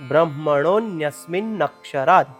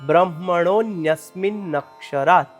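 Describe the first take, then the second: No difference in how they are said.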